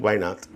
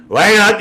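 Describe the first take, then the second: First: Said in the usual way. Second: Loud, high "why not?"; indignant retort. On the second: Real, not acted. Host answering news about Aldi, loudly indignant. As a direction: throw the question back with force. Throws the question back indignantly.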